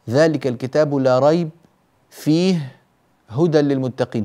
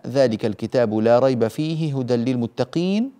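First: There are pauses after la rayb and fihi. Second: It is said in one unbroken stretch.

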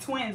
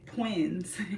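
First: The word starts with a T sound. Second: The word starts with a P sound. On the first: The speaker calls it right. "It's twins with a T" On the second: The speaker calls it wrong. "she was saying it with a P. Like"

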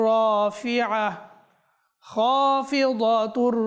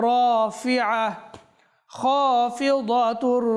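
The two takes are said the same way.

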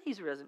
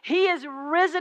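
First: It is said in a casual, offhand way. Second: It is said in an emphatic, proclaiming way. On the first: It is passed on as ordinary chat. The speaker calls it wrong. "It's not a conversation. They're like" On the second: It is announced as great news. The speaker calls it right.

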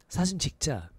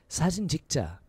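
The two takes are said the same way.

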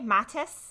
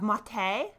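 First: It has a soft a and ends in -es. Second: It ends in a vowel with no s sound. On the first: This follows the original German. "So it's like a soft A" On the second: It sounds fancy and French. "the fancy French version of maté, so we drop the S"

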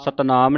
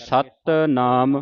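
First: The first syllable is said lightly. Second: The first syllable is said heavily. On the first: The speaker calls it wrong. "Satnam ਨਹੀਂ ਕਹਿਣਾ" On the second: The speaker calls it right. "ਸਤ ਭਾਰਾ ਕਰਕੇ"

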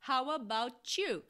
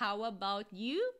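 First: The t and you merge into a ch sound. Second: The t and you are pronounced separately. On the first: "ou com som de ch" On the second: "você pode falar how about you"

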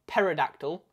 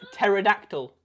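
First: The word begins with a P sound before T. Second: The word begins with a plain T sound. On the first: The speaker calls it wrong. "not pterodactyl" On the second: The speaker calls it right. "Because it's pterodactyl"

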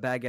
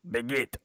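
First: It is said with an English accent. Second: It is said with a French accent. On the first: "Instead of" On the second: "I heard your French accent"

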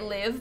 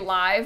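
First: The vowel is short, as in 'living'. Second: The vowel is long, as in 'five'. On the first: The characters are living. "I always said it live because your Sims are like living" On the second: The gameplay happens in real time. "some people say live because you like, it's like live gameplay"

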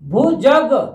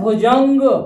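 First: There is no nasal sound before the final 'g'. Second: There is a nasal sound before the final 'g'. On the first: The speaker calls it right. "ये है भुजग" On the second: The speaker calls it wrong. "ये गलत है"

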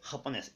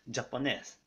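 First: The word begins with an 'h' sound. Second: The word begins with a 'j' sound. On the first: The speaker calls it right. "フっていう発音になります" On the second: The speaker calls it wrong. "ジャパンのジュではなく"

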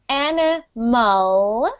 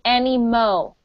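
First: The word ends with a clear L sound. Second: The final L becomes an O sound. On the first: The speaker calls it right. "instead of saying animal" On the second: The speaker calls it wrong. "you're saying animo"

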